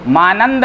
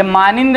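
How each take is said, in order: First: मानंद as maa-nand; corrected pronunciation. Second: मानिंद as maa-nind, the mistaken reading; mispronounced मानिंद. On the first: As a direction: say मानंद with a short a in the second syllable. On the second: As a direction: say मानिंद with a short i in the second syllable. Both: Shown as a demonstration. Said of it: "ये मानिंद मत पढ़िए इसको".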